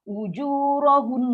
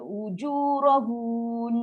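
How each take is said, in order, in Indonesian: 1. Suku kata terakhir pendek dan tertutup, bersengau. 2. Suku kata terakhir memiliki vokal panjang yang dipanjangkan. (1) "Kekalkan dengung" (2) "Jangan baca ujurahun. Ha, salah. ... kita dah tambah huruf mat"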